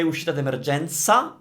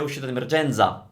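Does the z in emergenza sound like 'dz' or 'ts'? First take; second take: ts; dz. First: The z in emergenza is a voiceless ts. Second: The z in emergenza is a voiced dz. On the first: The speaker calls it right. "most Italians will say" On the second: The speaker calls it wrong. "they won't say ... nobody would say that"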